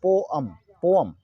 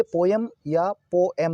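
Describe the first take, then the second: First: पोअम as po-am, drawn out slowly; correct poem pronunciation. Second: पोएम said as po-yam or po-em; mispronounced poem. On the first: Teacher modelling the dictionary reading, slow po-am for पोअम. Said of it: "इसको हम लोग पढ़ते हैं पोअम". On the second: Teacher showing students the wrong reading, पोएम as po-em. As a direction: say पोएम with a clear em ending. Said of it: "Actually ये पोएम या पोएम नहीं है". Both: Shown as a demonstration.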